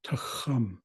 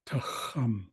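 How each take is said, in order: The two takes are said the same way.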